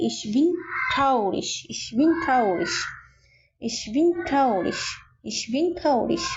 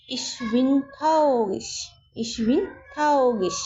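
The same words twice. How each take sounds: First: "traurig" with a clear tongue-tip R, not g-like; plain R. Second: "traurig" with a throaty, g-like R; guttural German R. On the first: Teacher simplifies for new learners, "traurig" with plain tongue-tip R. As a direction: say the R in "traurig" like a Bengali R. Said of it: "আরটাকে আর এর মতোই উচ্চারণ করবেন". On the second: Teacher models the phrase for learners, "traurig" with guttural R. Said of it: "গ এর মতো এখন উচ্চারণ করার দরকার নেই". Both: Shown as a demonstration.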